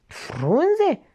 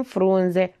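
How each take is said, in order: First: Astonished one-word question, pitched up high; surprised. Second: Said in the usual way. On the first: Acted. Lae marvelling at the leaves, astonished. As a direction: echo the word in disbelief. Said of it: "se minună Lae".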